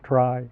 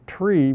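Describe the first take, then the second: First: The vowel sounds like 'y' in 'fly'. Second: The vowel sounds like 'ee' in 'see'. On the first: It stays distinct from the word for binary search trees. The speaker calls it right. "so we pronounce it try" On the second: It would sound the same as the word for binary search trees. The speaker calls it wrong. "we don't pronounce it tree"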